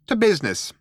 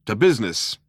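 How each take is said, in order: First: High little mouse voice opening a meeting; businesslike mouse. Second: Toast in chorus, in a natural pitch; proposing a toast. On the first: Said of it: "said Benji Mouse". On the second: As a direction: echo it as a toast over drinks. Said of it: "you were proposing a toast". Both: A narrator's reading.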